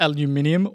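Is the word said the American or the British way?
British. The word is said with five syllables.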